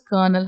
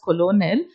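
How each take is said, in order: First: The word is pronounced differently from its spelling. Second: The word is pronounced the way it is spelled. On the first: The speaker calls it right. "it has to be pronounced as Colonel Hunt" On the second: The speaker calls it wrong. "should not be pronounced as colonel"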